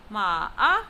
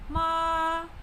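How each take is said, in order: First: The pitch dips low, then rises. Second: The pitch stays high and level. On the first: It means horse. "Ma-a is said with the falling rising tone" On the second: It means mother. "also known as the first tone"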